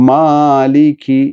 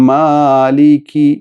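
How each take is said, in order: The two takes are said the same way.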